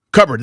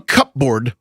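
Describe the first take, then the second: First: Said in the usual way. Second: "cupboard" said as two words, cup board; spelling pronunciation. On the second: Shown as a demonstration. Co-host joking about the word, "cupboard" as cup-board. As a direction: sound both the P and full "board" in "cupboard".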